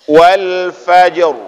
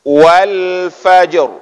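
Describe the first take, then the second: The two takes are said the same way.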